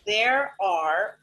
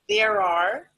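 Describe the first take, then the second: First: Both words are said fully and separately. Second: The words are blended into one reduced syllable.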